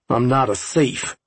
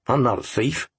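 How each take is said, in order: First: It is said more loudly. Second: It is said at a normal, quieter volume.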